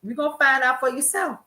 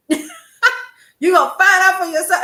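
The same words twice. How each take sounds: First: Said in the usual way. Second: Louder, higher, laughing through it; mock-knowing mother, laughing; laughing mother quote. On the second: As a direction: laugh as you repeat mom's warning. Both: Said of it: "she would shake her head and say".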